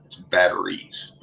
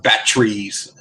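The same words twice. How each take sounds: First: "batteries" in three full syllables, "bat-er-ees"; corrected pronunciation. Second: "batteries" squeezed to two syllables, "bat-trees"; Canadian pronunciation. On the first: Correcting Bob from Canada, "batteries" as "bat-er-ees". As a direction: spell out "batteries" slowly, middle syllable kept. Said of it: "I'm like, "It's batteries". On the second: Imitating Bob from Canada, "batteries" as "bat-trees". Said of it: "he's from Canada, you have batteries". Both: Retold or imitated.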